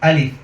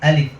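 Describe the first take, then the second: No difference in how they are said.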